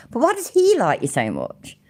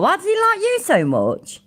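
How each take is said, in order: First: "he" punched high, then falling away; stress on "he". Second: High-pitched, stress on "like you"; puzzled, "like you" pushed up high; incredulous question. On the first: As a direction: lean hard on "he", incredulous. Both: Real, not acted. Puzzled repeated question, emphasis moved.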